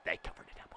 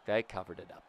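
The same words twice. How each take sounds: First: Hushed, voiceless whisper. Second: Said in the usual way. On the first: Real, not acted. Player telling himself they covered it up, whispering. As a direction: drop to a very soft whisper.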